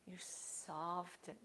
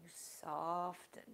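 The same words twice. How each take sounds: First: You soften drawn out, slow and hushed; slow soft emphasis. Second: Said in the usual way. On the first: Shown as a demonstration. Yoga teacher stressing softening to the class, slow and hushed. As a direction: let "You soften" melt away slowly. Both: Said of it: "That's important".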